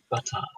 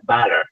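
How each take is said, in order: First: The t is clear and the r is dropped. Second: The t is weak, American style. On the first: "T and no uh, ro- that R sound" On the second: "American T sound is sometimes very weak, like butter"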